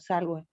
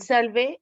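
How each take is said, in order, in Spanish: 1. La consonante después de la l no es una v. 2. La consonante después de la l es un sonido v. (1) "No como salve" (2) "lo usan, pero con como V"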